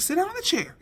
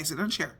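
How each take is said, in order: First: Firm high command. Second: Low, soft, gentle request; soft reassurance. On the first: Mother orders confused son into the chair, high and firm. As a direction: order him to sit, firmly. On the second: Mother hugs son and gently asks him to sit, soft and low. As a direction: soothe him into the chair. You're okay. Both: Retold or imitated.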